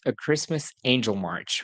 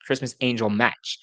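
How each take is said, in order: First: "March" said with an r and a ch, the wrong title; reading the title as "March" by mistake; slip of the tongue. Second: "Match" said with a short a and tch, no r; fixing the word to "Match"; self-correction. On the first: Reviewer misreads the movie title: "March" with r and ch. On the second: Reviewer corrects the movie title: "Match" with short a. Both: Real, not acted.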